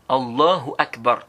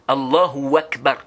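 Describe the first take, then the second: First: The h sound in Allahu is clearly pronounced. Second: An extra w sound is added after Allahu. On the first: The speaker calls it right. "Et tu prononces bien le, le ha" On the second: The speaker calls it wrong. "on dit Allahu et puis tu ajoutes le wa"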